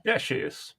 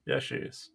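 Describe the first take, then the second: First: Said in the usual way. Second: Whispered echo under the breath. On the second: Real, not acted. Repeats the compliment under breath.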